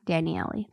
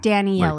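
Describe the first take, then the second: First: The name is said with all four syllables. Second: The name is said with fewer than four syllables. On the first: The speaker calls it right. "Squeezing all four syllables out of that" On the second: The speaker calls it wrong. "I said it wrong"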